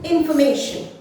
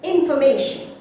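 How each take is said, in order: Both takes have the same delivery.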